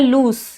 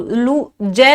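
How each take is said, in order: First: The word ends with an s sound. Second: The word ends with a z sound. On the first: The speaker calls it right. "स होता है लूज" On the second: The speaker calls it wrong. "लू जय नहीं होता"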